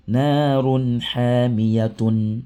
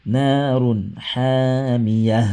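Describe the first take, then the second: First: Slow "narun hamiyatun" with the full tun; written form. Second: Very slow "narun hamiyah" closing on a breathed h; stop form. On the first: Teacher reads the written form slowly for students. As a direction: say every letter slowly, ending "tun". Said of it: "Ce qui est écrit là". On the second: Teacher models the stopping reading, very slow. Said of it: "Donc ça devient". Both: Shown as a demonstration.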